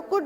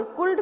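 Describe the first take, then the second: First: कुड said without any l; correct pronunciation. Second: कुल्ड with the l sounded, as the wrong way; wrong pronunciation. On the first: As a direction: say कुड with a silent l. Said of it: "तो कुड बोल रहे हैं". (l के बिना कुड) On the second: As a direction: sound the l in कुल्ड to show the mistake. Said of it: "कहाँ बोल रहे हैं हम". (गलत उच्चारण कुल्ड) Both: Shown as a demonstration.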